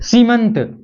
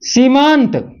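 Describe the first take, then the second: First: The vowel after the m is short. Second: The vowel after the m is long. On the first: The speaker calls it right. "स्वर का ह्रस्वीकरण हुआ, स्वर दीर्घ से और लघु हुआ" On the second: The speaker calls it wrong. "सीमांत ये बनना चाहिए ना, लेकिन ये नहीं बनेगा"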